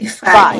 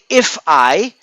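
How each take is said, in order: First: The f sound joins straight into I. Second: The two words are said separately. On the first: The speaker calls it right. "I say fi" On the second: The speaker calls it wrong. "I don't say if I"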